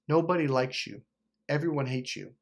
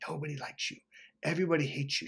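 First: Said in the usual way. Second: Hushed, soft retelling of a whisper; imitated whispering. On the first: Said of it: "She literally was saying". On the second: Girlfriend to him as he sleeps, imitated whispering. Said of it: "She was whispering".

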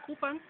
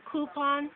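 First: Jamaican "Coupon", reduced last vowel; Jamaican pronunciation. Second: Said in the usual way. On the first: Shown as a demonstration. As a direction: say "Coupon" ending in pun. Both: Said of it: "given a little rougher texture".

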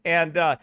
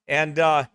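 The two takes are said the same way.

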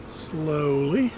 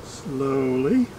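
Both takes have the same delivery.

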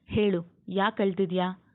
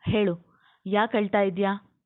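First: Understated stern question, at normal volume; mildly stern demand for an answer; slightly stern. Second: Mildly scolding question, slightly raised; a touch more forceful, ending on a rise. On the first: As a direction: ask with a touch of strictness, held in check. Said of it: "ಈ ಬಾರಿ ಕೊಂಚ ಮುಖ ಬಿಗಿದುಕೊಂಡ". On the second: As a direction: demand an answer with some impatience. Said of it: "ಮತ್ತಷ್ಟು ಜೋರಾಗಿ ಗದರುವಂತೆ ಕೇಳಿದ್ದ". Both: A narrator's reading.

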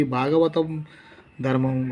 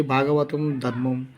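First: భాగవతం ధర్మం with full aspirated bh and dh; formal speech, aspirates kept. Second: భాగవతం ధర్మం said slowly as bagavatam darmam, no aspiration; aspirates dropped. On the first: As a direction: sound the breathy bh and dh in భాగవతం ధర్మం clearly. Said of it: "ఒత్తులు నిలుస్తాయి". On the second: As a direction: drop the breath from bh and dh in భాగవతం ధర్మం. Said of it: "ఒత్తులు పోతాయి". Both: Shown as a demonstration.

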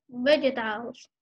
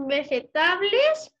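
First: "vegetables" said the English way; learner's English "vegetables", not read with Spanish spelling sounds; spoken English pronunciation. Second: "vegetales" read as written, Spanish-style; spelling pronunciation. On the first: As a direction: say "vegetables" as pronounced, not as spelt. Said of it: "pero se dice vegetables". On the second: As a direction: say "vegetales" letter by letter as a Spanish word. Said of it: "Se escribe vegetales". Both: Shown as a demonstration.

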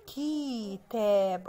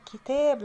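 First: كتاب very slowly as "keee-taab"; split into syllables. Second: Said in the usual way. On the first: Shown as a demonstration. Teacher revealing the missing letter, كتاب stretched syllable by syllable. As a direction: hold the first vowel of كتاب, then finish the word. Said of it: "اه ناقص حرف الكاف وتحتيه كسرة". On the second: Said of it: "لما نكسر كده".

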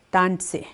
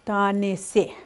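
First: "tanse" run together fast, middle vowel dropped; natural speaker way. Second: "Tanese" split into clear separate syllables. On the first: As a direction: say "tanse" smoothly like a native speaker. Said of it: "the way a speaker would say it". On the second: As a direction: sound out "Tanese" slowly, each syllable apart. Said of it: "saying it syllable by syllable". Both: Shown as a demonstration.

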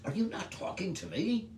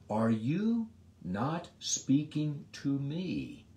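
First: High question with "me" stressed and rising; emphatic me. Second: Slow question, leaning on "me"; stress on me. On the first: Pilate insisting Jesus answer him, "me" stressed. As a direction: push "me" up as a demand. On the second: Pilate pressing silent Jesus, "me" stressed. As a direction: drag it out and land on "me". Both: Acted. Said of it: "The word "me" is emphatic".

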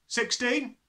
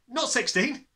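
First: Carefree, high answer on "Sixteen"; foolish abandon. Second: "not" stressed high with a rising tune before "sixteen"; correcting himself. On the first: Small boy blurts a wrong answer, carefree and high. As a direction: toss off "Sixteen" cheerfully, not knowing the danger. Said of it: "answered with foolish abandon". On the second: Boy anxiously corrects his wrong answer, stressing not. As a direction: lean hard on "not", lift it anxiously. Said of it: "quickly tried again". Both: A narrator's reading.

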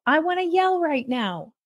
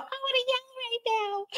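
First: Raised pitch, at normal volume; retold self-talk. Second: Very high, hushed pretend yell; mock yell. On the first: Parent telling herself she has to yell, higher-pitched mock declaration. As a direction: announce an urge to yell without yelling it. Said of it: "you have to yell". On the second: Mother recalling her ridiculous yelling habit, soft high mock yell. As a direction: yell it out in a tiny squeal, volume held back. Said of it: "when I would yell out".

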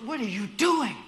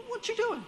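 First: Loud, high mock yell; replayed road rage. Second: Road rage. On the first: Shown as a demonstration. Replaying the scene to Brenton, loud annoyed yell. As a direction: snap at the other driver. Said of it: "let's replay this scenario". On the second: Retold or imitated. To a driver cutting in, high angry shout. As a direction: bark it at the car cutting in. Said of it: "and he's like".

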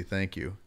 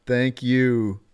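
First: A softer, earnest thank you; mean every word of thank you; quiet heartfelt thank you; sincere thanks. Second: Said in the usual way. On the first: Real, not acted. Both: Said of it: "No, seriously".

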